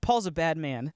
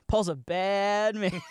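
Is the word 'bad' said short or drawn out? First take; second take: short; drawn out. First: The word bad is short and plainly negative. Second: The word bad is drawn out, admiringly.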